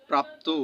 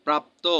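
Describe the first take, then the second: First: প্রাপ্তু said with a final u sound, praptu; pronounced praptu. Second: Said in the usual way. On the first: Shown as a demonstration. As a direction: end প্রাপ্তু on a short u, praptu. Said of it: "প্রাপ্তু, প্রাপ্ত হয়েছে". (শেষে উ-কার দিয়ে প্রাপ্তু উচ্চারণ) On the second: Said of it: "প্রাপ্ত এর উচ্চারণ".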